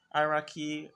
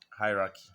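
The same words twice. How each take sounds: First: Hierarchy said higher and louder, stressed; emphatic repeat. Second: Said in the usual way. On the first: Shown as a demonstration. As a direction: punch the word Hierarchy up high and loud.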